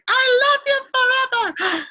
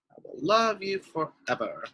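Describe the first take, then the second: First: High, loud, slow yell of "love you forever". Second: Said in the usual way. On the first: Shown as a demonstration. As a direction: belt it out like an exclamation mark. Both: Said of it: "that's just like yelling".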